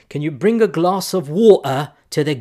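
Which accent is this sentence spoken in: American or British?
British. It is spoken in a British English accent. "I'm gonna try my fake British accent here"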